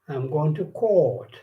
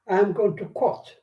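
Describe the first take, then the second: First: The vowel in 'court' is long and drawn out. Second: The vowel in 'court' is short, like 'cot'. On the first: It means going to a law court. The speaker calls it right. "So you have to say" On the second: It sounds like going to a baby's bed. The speaker calls it wrong. "hmm, cot is a, a baby's bed. Where is this person going?"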